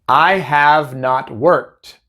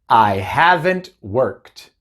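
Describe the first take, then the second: First: Have and not are said as two full words. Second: Have and not are merged into one contracted word. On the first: "Casi nunca vamos a decir have not" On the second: "otra vez con la contracción"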